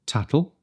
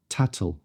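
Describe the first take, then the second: First: "Tattle" with a clear released middle t; spelled-out t in the middle; full t sound. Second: "tattle" with the middle t released sideways into l; t slides into l; lateral release. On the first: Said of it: "pronounce T's differently". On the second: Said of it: "lateral release". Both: Shown as a demonstration.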